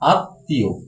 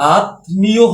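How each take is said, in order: First: The 'm' is silent and the 't' is doubled. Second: The word is said as spelled, with 'm' heard. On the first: The speaker calls it right. "সঠিক উচ্চারণ হয় আমাদের আত্মীয়" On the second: The speaker calls it wrong. "আত্মীয় হওয়ার কথা ছিল"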